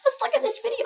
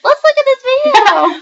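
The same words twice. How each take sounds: First: Put-on high, soft little old woman voice; faint old lady whisper. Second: Put-on high, slow little old woman voice; quavery old lady voice; very old faint voice. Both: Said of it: "We're gonna talk like little old women".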